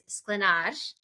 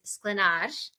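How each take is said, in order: First: The r is the special Czech ř sound. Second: The r is the special Czech ř sound.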